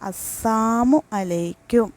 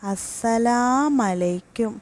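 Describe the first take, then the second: First: The syllable la is dropped from salamu. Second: The final u of salamu is dropped. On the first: May death come upon you. "രണ്ടാമത്തത് അസ്സാമു അലൈക്കും" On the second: May you be destroyed. "അതിൽ ആദ്യത്തേത് അസ്സലാമലൈക്കും"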